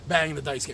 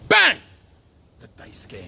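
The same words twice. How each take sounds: First: It is said calmly at normal volume. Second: It is shouted loudly with great energy. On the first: The speaker calls it wrong. "You can't just go" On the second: The speaker calls it right. "You got to go"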